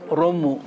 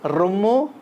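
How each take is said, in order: First: Said in the usual way. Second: రొమ్ము with a strong trilled r, rising; old hard R. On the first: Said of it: "మామూలుగా". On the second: Shown as a demonstration. Teacher showing the old letter, రొమ్ము with hard r. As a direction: roll the r hard opening రొమ్ము. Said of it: "తేడా ఇది".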